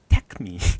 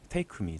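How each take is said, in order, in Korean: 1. take의 k 소리가 아주 약합니다. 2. 일본 사람들이 말하는 방식으로 발음됩니다. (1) "그 크가 아주 아주 살살 들어가야 되는 Take Me" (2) "일본 분들은 Take Me라고 하겠죠"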